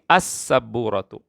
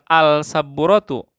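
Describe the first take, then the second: First: The l is silent and the s is doubled. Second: The l is pronounced before the s sound. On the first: The speaker calls it right. "tapi as-sabburatu" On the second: The speaker calls it wrong. "Bukan al-sabburatu"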